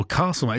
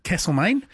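First: "Castlemaine" said as Kahssel-main; broad Castlemaine. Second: "Castlemaine" said as Kassel-main; short a Castlemaine. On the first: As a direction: open the first a of "Castlemaine" to ah. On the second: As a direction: flatten the first a of "Castlemaine". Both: Shown as a demonstration. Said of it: "place names as well".

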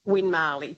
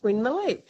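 First: "Win Marley", with MAR as a full open syllable; two words, "Win MAR-ley"; common mispronunciation. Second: "Win Marley" with the middle reduced to a quick "muh"; correcting "Win Marley" to a short-voweled "Win-m'lee"; corrected pronunciation. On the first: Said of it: "habit of saying Win Marley". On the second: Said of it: "I go, "No, it's Win Marley". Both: Retold or imitated.

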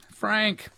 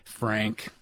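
First: Name pitched high and held level; high, sing-out greeting; calling out. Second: Name said low and level; low, matter-of-fact introduction; low-pitched name. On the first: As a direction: call the caller by name, up high. Calling the caller a second time. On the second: Introducing caller, then calling him. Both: Real, not acted.

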